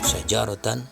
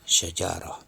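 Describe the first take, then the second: First: The word ends with a 'tan' sound. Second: The word ends with a soft 'h' sound. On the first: This is the form with tanwin. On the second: The reader stops on this word.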